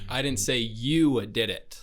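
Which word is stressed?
you. The stress is on the word you.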